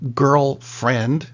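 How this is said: A small gap separates girl and friend. She is a friend who is a girl. "There's a space in between"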